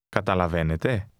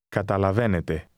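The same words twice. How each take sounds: First: It is said with question intonation. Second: It is said with statement intonation.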